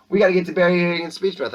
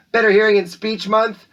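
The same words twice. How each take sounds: First: Said in the usual way. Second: Higher and louder, with "Better" punched; title announcement. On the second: Acted. Announcer proclaiming the month's theme to students. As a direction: proclaim it like a headline.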